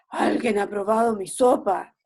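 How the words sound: The voice is hoarse and rough.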